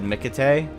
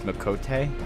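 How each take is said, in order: First: The second syllable has a vowel like 'cake'. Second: The second syllable has a vowel like 'coat'. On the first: The speaker calls it wrong. "For a long time, I said Mikate" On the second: The speaker calls it right. "but it's Mikote"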